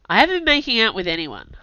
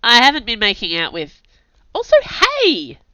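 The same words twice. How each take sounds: First: Grumbled denial; grumbling. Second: Flustered, cut-off denial; protest, then a squeaky hey; indignant protest. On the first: A narrator's reading. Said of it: "I grumbled". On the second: Acted. Narrator protests May's teasing.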